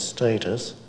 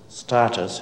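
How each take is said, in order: First: The word is said with the English pronunciation. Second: The word is said with the local pronunciation. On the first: "English pronunciation is status" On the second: "Status here, so that you understand what I say"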